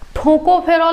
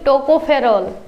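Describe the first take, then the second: First: The first consonant is aspirated, with a breath. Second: The first consonant is unaspirated, without a breath. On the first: The speaker calls it wrong. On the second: The speaker calls it right.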